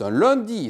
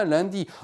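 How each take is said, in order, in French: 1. Les voyelles nasales se disent avec la bouche qui se ferme. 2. Les voyelles nasales se disent avec la bouche ouverte. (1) "Ici, on va parler du premier jour de la semaine, c'est un lundi" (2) "c'est pas un lundi"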